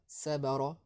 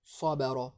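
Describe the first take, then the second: First: Sabara avec un s léger et des voyelles claires, la prononciation fautive; mauvaise prononciation. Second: Sabara avec un s emphatique et un a grave, la forme correcte; bonne prononciation. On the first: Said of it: "il faut faire attention, c'est pas sabara". (sabara prononcé clair et léger, à éviter) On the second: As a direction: sabara dit avec le s épais du ṣad, voyelles sombres. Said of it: "mais plutôt sa, sabara". (sabara prononcé grave et emphatique, comme modèle) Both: Shown as a demonstration.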